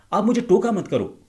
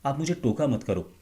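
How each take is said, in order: First: Shouted high and loud for aggression; high aggressive pitch. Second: Said in the usual way. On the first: Shown as a demonstration. A speaker contrasting a calm take with an aggressive high-pitched take. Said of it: "आपने उस high pitch को पकड़ा". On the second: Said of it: "इसको किस तरह से बोला जा सकता था?".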